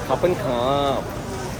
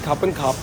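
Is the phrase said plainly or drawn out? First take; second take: drawn out; plain. First: The phrase is drawn out and lingering. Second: The phrase is said plainly and evenly. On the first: The speaker calls it right. "इनके स्टाइल में कहना होता है लटका कर" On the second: The speaker calls it wrong. "Simple खापन खाप नहीं कहना होता"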